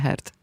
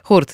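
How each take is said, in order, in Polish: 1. Samogłoska to angielskie 'er'. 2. Samogłoska to zaokrąglone 'u'. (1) "nie Hert" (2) "Hurt, nie Hert"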